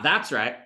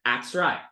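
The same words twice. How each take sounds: First: Said in the usual way. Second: "That's right" said as "'at's right", lower; low "'at's right" without th; Southern dropped th. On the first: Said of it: "It's not". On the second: Shown as a demonstration. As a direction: start "That's" on the vowel, no th. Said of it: "It's not "That's right".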